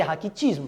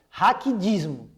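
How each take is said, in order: First: "raquitismo" with a T sound, not a D; correct pronunciation. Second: "Raquidismo" with a D sound in place of the T; mispronounced raquitismo. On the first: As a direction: say "raquitismo" with the unvoiced T before "ismo". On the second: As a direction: slowly say "Raquidismo", voiced D before "ismo". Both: Shown as a demonstration. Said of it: "O certo é raquitismo".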